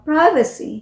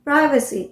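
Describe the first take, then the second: First: It is said with an American English accent. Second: The same.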